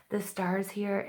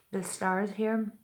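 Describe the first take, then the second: First: Said in the usual way. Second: Slow, slurred words; tongue tripping, slurred and slow; slurring. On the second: Real, not acted. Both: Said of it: "excuse me, I'm, like, slurring".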